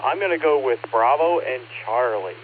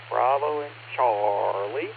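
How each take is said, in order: First: Said in the usual way. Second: "Bravo and Charlie" slowly drawn out, rising at the end; slow repeat. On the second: Real, not acted. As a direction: repeat the answer slowly so it's noted.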